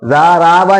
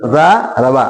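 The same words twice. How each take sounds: First: ज़ाराबा with both ज़ा and रा drawn long; wrong lengthening. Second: ज़ारबा with long ज़ा, then quick short रबा; correct lengthening. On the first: Teacher shows students the mistake, ज़ाराबा with overlong रा. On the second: Teacher corrects the mistake, ज़ारबा with short रा. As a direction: hold only ज़ा in ज़ारबा, falling at the end. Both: Shown as a demonstration. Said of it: "ज़ाराबा नहीं".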